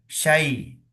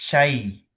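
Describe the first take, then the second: The two takes are said the same way.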